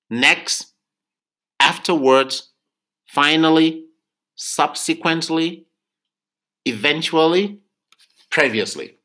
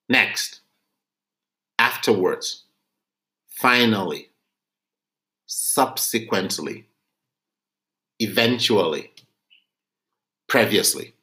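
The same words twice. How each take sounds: First: The list is read at normal speed. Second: The list is read slowly.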